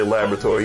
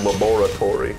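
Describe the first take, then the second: First: Laboratory is pronounced the ordinary, everyday way. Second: Laboratory is pronounced in a villainous, theatrical way. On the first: "he doesn't say laboratory" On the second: "You know a motherfucker's evil when"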